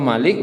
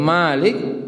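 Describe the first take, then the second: First: The first vowel is said short. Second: The first vowel is said long. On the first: It means the one who rules. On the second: It means the one who owns. "Panjangan pemilik ... pemiliknya"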